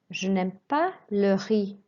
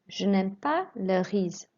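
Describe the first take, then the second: First: The last word ends in a vowel sound. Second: The last word ends in a Z sound. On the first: The speaker calls it right. "read a sentence correctly first" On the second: The speaker calls it wrong. "Don't pronounce the Z at the end"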